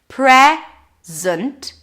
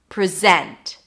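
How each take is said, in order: First: The stress is on the first syllable. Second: The stress is on the second syllable. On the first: "zent, then there is no vowel here" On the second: "if I shift the stress to the second syllable"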